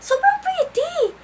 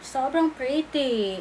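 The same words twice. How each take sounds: First: Very high, slow, gushing "Sobrang pretty"; squealed self-praise. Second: Dreamy self-praise. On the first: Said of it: "Tingnan mo". (matinis at mabagal na "Sobrang pretty") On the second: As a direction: draw out "Sobrang pretty" slowly, admiring. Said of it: "Imagine, te". (mabagal at mahinang "Sobrang pretty") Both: Shown as a demonstration.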